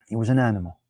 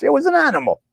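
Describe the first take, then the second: First: Said in the usual way. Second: High mock. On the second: Mocking a caller's words in a high put-on voice. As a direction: toss it up high like a jeer. Mock correction, repeated plainly after.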